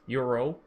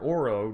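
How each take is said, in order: First: The name begins with a 'you' sound. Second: The name begins with an 'oh' sound. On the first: The speaker calls it right. "They said it's Euro" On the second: The speaker calls it wrong. "the way I pronounced Oro's name"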